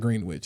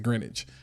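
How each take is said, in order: First: The W in the middle is sounded. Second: The W in the middle is silent. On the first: The speaker calls it wrong. "It's not Greenwich" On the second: The speaker calls it right. "you don't pronounce the W"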